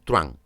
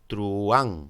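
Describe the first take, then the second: First: The vowels are joined into one syllable. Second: The vowels are split into two syllables. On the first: This is how it is said in most of Latin America. "dicen truán" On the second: This is how it is said in Spain. "no dicen truán"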